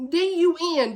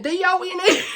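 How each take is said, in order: First: Spelling D U N letter by letter, wrong on purpose; D U N spelled out as a joke misspelling; misspelled letters. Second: Spelling D O N E letter by letter, a bit higher; D O N E spelled out properly to hammer it home; correct spelling. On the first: Reviewer jokingly spells D U N to stress she quit the book. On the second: Reviewer corrects herself, spelling D O N E with emphasis. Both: Shown as a demonstration. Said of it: "I'm done".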